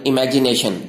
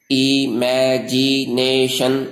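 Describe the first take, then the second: First: Said in the usual way. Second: imagination very slowly in five stretched syllables. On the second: Shown as a demonstration. Teacher shows five tongue movements in imagination, slow syllable by syllable. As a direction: draw out each of the five beats of imagination. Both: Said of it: "पांच हरकतों से अदा होते हैं".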